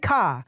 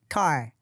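First: It is said in a British accent. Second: It is said in an American accent. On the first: The parent says it the usual local way. "this British woman" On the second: The child picked it up from watching videos. "saying words with an English, American English accent"

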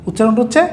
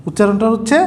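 The two takes are said the same way.

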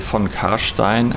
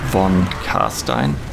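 First: The name is pronounced the German way. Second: The name is pronounced the English way.

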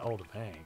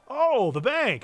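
First: It is said without enthusiasm. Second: It is said with enthusiasm.

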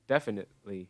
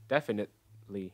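First: The middle T is a glottal stop. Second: The middle T is a glottal stop.

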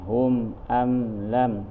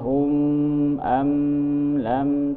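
First: The m is pronounced clearly without a held hum. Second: The m is held with a nasal hum. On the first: The speaker calls it right. "Di sini izhar syafawi semuanya nih" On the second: The speaker calls it wrong. "Jadi tidak boleh hum am lam, tidak boleh"

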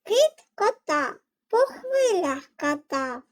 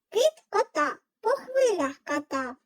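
First: It is said at a normal, slower pace. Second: It is said at a quicker pace.

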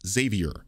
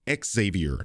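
First: It does not begin with the letter X sound. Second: It begins with the sound of the letter X. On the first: The speaker calls it wrong. "not Xavier" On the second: The speaker calls it right. "Professor X's name is Xavier"

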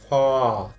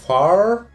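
First: It is said with a British accent. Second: It is said with an American accent. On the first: "британское" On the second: "Американское"

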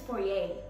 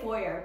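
First: The word is pronounced a non-American way. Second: The word is pronounced the American way. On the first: "but I think it's foyer" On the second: "Americans say foyer"

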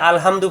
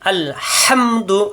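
First: The h is a plain, light h. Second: The h is a throaty, breathy h. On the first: The speaker calls it wrong. "আমরা যদি আলহামদু করি তাহলে ভুল হয়ে যাবে" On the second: The speaker calls it right. "আলহামদু হাসাব দিয়ে"

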